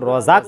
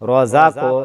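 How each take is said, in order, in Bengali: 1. q ধ্বনি ক্লিপড, কোনো প্রতিধ্বনি-বাউন্স নেই। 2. q ধ্বনি প্রতিধ্বনি-বাউন্স দিয়ে ছাড়া হয়। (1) "আপনারা যদি রজাক বলেন তাহলে হবে না" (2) "এভাবে বলতে হবে"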